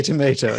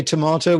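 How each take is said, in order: First: "tomato" said tuh-MAY-toh; own pronunciation. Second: "tomato" said tuh-MAH-toh; the other's pronunciation. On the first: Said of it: "we say tomato". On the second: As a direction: say "tomato" with a long ah. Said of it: "you say tomato". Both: Shown as a demonstration.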